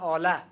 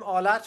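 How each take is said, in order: First: The word ends with a vowel. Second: The word ends with a t sound. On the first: This is how it is said in Afghanistan and Tajikistan. "اونها بدون تا تلفظ میکنن" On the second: This is how it is said in Iran. "ما میگیم آلت"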